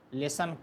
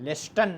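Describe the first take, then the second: First: The t sound is left out. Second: The t sound is clearly pronounced. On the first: The speaker calls it right. "इसमें टी जो है आपका silent रहता है, लेसन पढ़ा जाता है" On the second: The speaker calls it wrong. "लेस्टन नहीं पढ़ेंगे"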